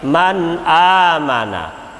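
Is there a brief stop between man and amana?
no. Man and amana flow together without stopping. The speaker calls it right.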